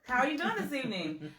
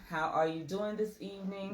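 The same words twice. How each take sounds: First: It is said in a lively, bubbly voice. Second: It is said in a flat, unbubbly voice.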